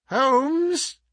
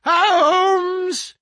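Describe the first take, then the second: First: High calling cry; insistent cry. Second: Higher, louder insistent call. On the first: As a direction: call out to wake a sleeper. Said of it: "he cried". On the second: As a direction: shout to rouse a sleeper. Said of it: "insistent tone of one who awakens a sleeper". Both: A narrator's reading.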